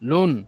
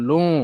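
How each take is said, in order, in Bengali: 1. শেষের n পুরোপুরি উচ্চারিত হয়। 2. স্বরটি অনুনাসিক হয়, পূর্ণ n নেই। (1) "এই যে ফোঁটা থাকলে নুন হতো" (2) "একটু গুন্না হবে"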